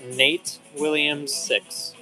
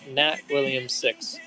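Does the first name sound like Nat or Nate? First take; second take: Nate; Nat. First: The first name has a long ay vowel. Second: The first name has a short a vowel. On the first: The speaker calls it right. "I say it right that time?" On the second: The speaker calls it wrong. "You forgot to say E"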